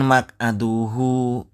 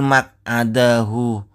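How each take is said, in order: First: The vowel after the d is u. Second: The vowel after the d is a. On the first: The speaker calls it wrong. "bukan maq'aduhu" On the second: The speaker calls it right. "yang betul maq'adahu"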